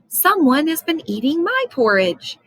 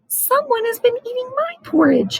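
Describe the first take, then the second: First: It is said in a medium-sized voice. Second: It is said in a small, tiny voice. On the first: "in her middle-sized voice" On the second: "his wee little voice"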